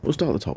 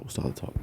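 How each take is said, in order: First: Said in the usual way. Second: Unvoiced whisper to self. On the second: Real, not acted. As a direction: whisper it to yourself. Repeated, whispered second take.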